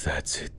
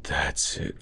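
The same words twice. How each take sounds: First: Whispered urging. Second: Said in the usual way. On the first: Acted.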